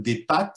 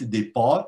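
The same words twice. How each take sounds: First: The A vowel is pronounced at the front. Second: The A vowel is pronounced at the back.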